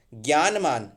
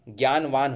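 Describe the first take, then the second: First: ज्ञानमान with M in the ending; wrong form ज्ञानमान. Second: ज्ञानवान with V in the ending; correct form ज्ञानवान. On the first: Teacher shows the error, mistaken form. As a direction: say ज्ञानमान, gyaan-maan. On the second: Teacher corrects ज्ञानमान, correct form. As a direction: say ज्ञानवान, gyaan-vaan. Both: Shown as a demonstration. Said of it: "ज्ञानवान होता है".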